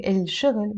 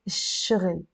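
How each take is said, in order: First: الشغل as il-shughl, L clearly sounded; L sound kept. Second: الشغل as ish-shughl with no L; silent L, doubled sh. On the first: Teacher showing the form to avoid, L pronounced. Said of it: "instead of saying الشغل". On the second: Teacher explaining the sun letter shin, L silent. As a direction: drop the L and lengthen the sh in الشغل. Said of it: "without the L sound". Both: Shown as a demonstration.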